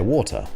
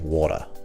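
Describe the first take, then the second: First: The middle consonant sounds like a clear T. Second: The middle consonant sounds like a soft D. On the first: "Where I'd say water" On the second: "My American would be water. They kind of put a D there rather than a T"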